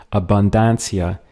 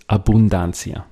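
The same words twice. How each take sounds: First: Abundancia with an English flat A; anglicized wrong way. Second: Abundancia with a clear Spanish U and open A; correct Spanish. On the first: Teacher showing the wrong, English abundancia. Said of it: "which really doesn't sound that Spanish". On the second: Teacher correcting to the Spanish abundancia. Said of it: "it's abundancia". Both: Shown as a demonstration.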